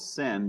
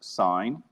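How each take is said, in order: First: The vowel is short, rhyming with 'fin'. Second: The vowel is long, rhyming with 'fine'. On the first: The speaker calls it wrong. "a lot of people want to call this sin, but it's not sin" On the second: The speaker calls it right. "these are pronounced sine"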